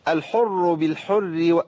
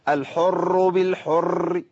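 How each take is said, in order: First: The r sound is not rolled or repeated. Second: The r sound is rolled with repeated taps. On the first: The speaker calls it right. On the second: The speaker calls it wrong.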